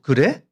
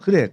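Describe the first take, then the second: First: It is said as a doubtful, questioning reply. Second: It is said as a settled, agreeing statement. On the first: The speaker doubts the other person's view. "이래 이래 버리면은 "그래 너 그렇게 생각해?"" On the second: The speaker agrees. ""맞아. 그래." 그 얘기도 되고"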